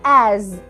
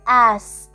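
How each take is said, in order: First: The word ends with a buzzing z sound. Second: The word ends with a hissing s sound. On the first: The speaker calls it right. "نطقها بيتحول ل از" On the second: The speaker calls it wrong. "ما ينفعش انطقها اس"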